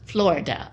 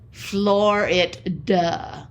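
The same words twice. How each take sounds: First: The phrase is said quickly, words run together. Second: The phrase is said slowly, word by word. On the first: It is heard as the name of a state. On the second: It is heard as a phrase about driving.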